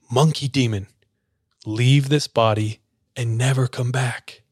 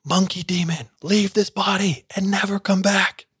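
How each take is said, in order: First: Said in the usual way. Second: Much higher, building mock scream; rising mock scream. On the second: Pastors banishing the monkey demon, higher and building. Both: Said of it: "They scream louder and louder".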